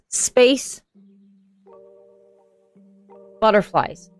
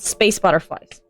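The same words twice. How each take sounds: First: There is a break between the two words. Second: The two words run together without a break. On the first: Two separate categories are meant. The speaker calls it right. "That was space butterflies" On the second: Butterflies from space are meant. The speaker calls it wrong. "not space butterflies"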